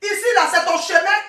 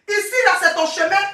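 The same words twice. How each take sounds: The two takes are said the same way.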